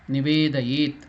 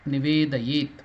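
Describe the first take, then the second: The two takes are said the same way.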